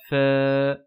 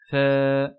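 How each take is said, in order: The two takes are said the same way.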